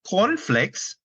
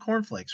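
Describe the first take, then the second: First: It is said in a put-on Norwegian accent. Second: It is said in an ordinary English accent.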